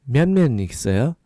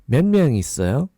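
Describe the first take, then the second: No difference in how they are said.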